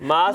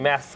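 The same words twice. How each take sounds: First: The word is said in a put-on accent. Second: The word is said in a plain accent. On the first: The speaker calls it wrong. "Accent वाला मास्क" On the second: The speaker calls it right. "ये मास्क है"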